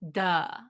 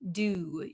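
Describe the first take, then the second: First: The vowel is a relaxed 'uh' with dropped jaw. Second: The vowel is a full 'oo' with rounded lips. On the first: "So it becomes just a drop. Our jaw just drops down" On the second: "the oo sound, we need a lot of um, stress around our lips"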